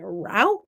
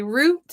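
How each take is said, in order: First: "route." said like rout, rhyming with out; other people's route. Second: "route." said like root; own pronunciation of route. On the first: Crafter shows how others say it, "route." rhyming with out. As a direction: say "route." with an ow vowel. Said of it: "Other people say route". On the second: Crafter shares how she says it, "route." like root. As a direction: say "route." with an oo vowel. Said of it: "I say route". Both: Shown as a demonstration.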